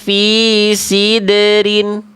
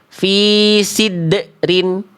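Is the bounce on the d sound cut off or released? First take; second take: released; cut off. First: The bounce on the d is released without a break. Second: The bounce on the d is held and cut off. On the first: The speaker calls it right. "Harusnya kita pantulkannya gimana?" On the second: The speaker calls it wrong. "Dia udah ada pantulannya, tapi pantulannya tertahan"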